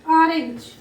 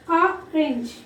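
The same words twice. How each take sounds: First: Said in the usual way. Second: ORANGE broken as or, pause, range; split into syllables. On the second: Shown as a demonstration. Teacher testing syllables for children, ORANGE split as or, range. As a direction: say ORANGE in two separate pieces, or and range. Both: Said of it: "One syllable".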